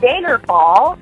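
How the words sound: The A vowel has a Midwestern North Dakota sound. The speaker calls it wrong.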